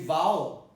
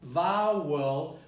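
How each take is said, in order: First: The word is said without a schwa. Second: The word is said with a schwa.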